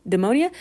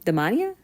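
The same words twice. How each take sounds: First: "Demonia?" with a long o, rising questioningly; second pronunciation guess. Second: "Demonia?" tried out with a questioning rise; unsure pronunciation. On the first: Vlogger tries the brand name another way, unsure "Demonia?". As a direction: try "Demonia?" as de-MOH-nia, ending on a question. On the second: Vlogger guesses at a brand name, unsure "Demonia?". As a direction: say "Demonia?" as a tentative guess, rising at the end. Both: Shown as a demonstration. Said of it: "However it's pronounced".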